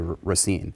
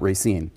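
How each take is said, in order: First: It is said in a careful, formal way. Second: It is said in a casual, everyday way. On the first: The speaker is giving a formal presentation. "in more formal settings" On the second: The speaker is relaxed and being himself. "when he's being himself"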